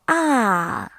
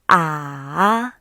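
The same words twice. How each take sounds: First: The pitch falls steadily from high to low. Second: The pitch dips down and then rises. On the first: "It's a full falling tone" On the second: "This tone goes down first and then rises"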